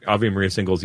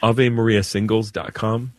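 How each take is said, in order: First: Quick, casual mention of AVE MARIA SINGLES; said quickly. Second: AVE MARIA SINGLES DOT COM spelled out word by word; repeated clearly. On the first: Priest offering a caller a website, said quickly. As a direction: run AVE MARIA SINGLES together in passing. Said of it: "you said it so fast". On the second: Priest repeating a website for a caller, said clearly. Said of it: "I can't get, grab it". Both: Real, not acted.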